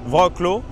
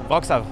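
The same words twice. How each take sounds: First: The name is read letter by letter as spelled. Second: The name is said with its native pronunciation. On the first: This is how the name is written. "Ça s'écrit Wrocław" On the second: This is how the name is actually said. "ça se prononce Wrocław"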